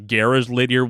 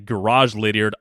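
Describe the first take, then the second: First: Garage is said the Australian way. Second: Garage is said the American way.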